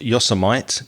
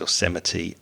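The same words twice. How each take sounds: First: It is pronounced the way it is spelled. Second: It is pronounced differently from its spelling. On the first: The speaker calls it wrong. "I grew up thinking that Yosemite was pronounced Yosemite because it's Y O S E M I T E" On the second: The speaker calls it right. "It's Yosemite"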